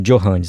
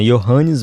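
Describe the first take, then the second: First: The first sound is a J sound. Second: The first sound is a Y sound. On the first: "Não Johannes" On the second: "o J tem som de I na língua deles"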